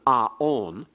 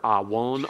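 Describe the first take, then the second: First: No consonant is heard between the two vowels. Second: A w sound is heard between the vowels. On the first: The letter is read as a vowel. "to be pronounced only as on" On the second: The letter is read as a consonant, as in classical Hebrew. "a W or a V here"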